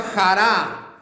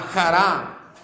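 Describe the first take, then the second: First: Said in the usual way. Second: Jará with the stress on the final A, xa-RA; stress on second A. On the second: Shown as a demonstration. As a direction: say jará with a harsh throaty j and the stress on the last A. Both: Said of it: "acento en la segunda A".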